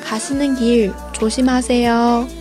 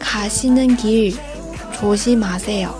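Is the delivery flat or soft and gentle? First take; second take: soft; flat. First: It is said softly and gently, ending expressively. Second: It is said in a flat, even tone. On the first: "一般女生说的时候会比较轻柔一点" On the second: "那这个是很平的一个语气"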